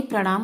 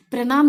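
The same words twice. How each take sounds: First: Said in the usual way. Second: प्रणाम said "pranaam", with an ordinary N; dental N. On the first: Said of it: "प्रणाम होता है". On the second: Shown as a demonstration. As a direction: keep the tongue forward for the N in प्रणाम. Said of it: "नहीं प्रणाम होता है".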